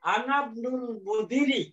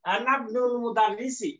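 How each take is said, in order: First: Slow careful reading of আনাবনুল মুদিরি, linking নুন into লাম; teacher sounds out আনাবনুল মুদিরি slowly to the student; first careful try, slipped word. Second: Slow, linked আনাবনুল মুদারিসি with the নুন joined to the লাম; corrected careful reading. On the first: Teacher slowly sounds out আনাবনুল মুদিরি for the class. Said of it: "এই বাকে ধরবে". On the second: Teacher slowly gives the corrected আনাবনুল মুদারিসি to the class. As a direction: say আনাবনুল মুদারিসি slowly with every syllable clear. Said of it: "আবার নুন যে এই লামকে ধরবে". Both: Shown as a demonstration.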